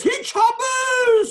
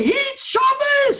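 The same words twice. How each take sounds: First: High, slow, shouted "hit Shabbos" again; wailing cry. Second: High, slow, shouted "hit Shabbos"; wailing cry. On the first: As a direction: repeat "hit Shabbos" as a drawn-out wail. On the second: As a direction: stretch "hit Shabbos" into a drawn-out wail. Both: Retold or imitated. Rabbi imitating the rebbe at the wedding, wailing shout. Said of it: "That's the way he said it".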